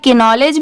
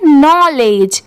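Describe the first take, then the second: First: The word starts with a k and vowel before n. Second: The word starts with an n sound, no k. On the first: The speaker calls it wrong. "But नहीं" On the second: The speaker calls it right. "यहाँ पर के letter silent है"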